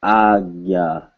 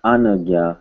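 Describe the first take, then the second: First: "agya" in two slow syllables, no n; "agya" slowly modelled the Hindi way; correct pronunciation. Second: "anagya" with an extra n syllable; "anagya" in three syllables, as the mistaken reading; wrong pronunciation. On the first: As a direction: stretch "agya" as long ah, then gya. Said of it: "but agya". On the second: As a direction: say "anagya" sounding out the n. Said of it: "Not anagya". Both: Shown as a demonstration.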